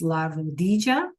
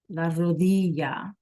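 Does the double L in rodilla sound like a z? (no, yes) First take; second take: yes; no. First: The double L is sounded like a z. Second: The double L is not sounded like a z.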